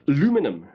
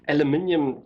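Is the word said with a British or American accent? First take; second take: American; British. First: It is said with an American accent. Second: It is said with a British accent.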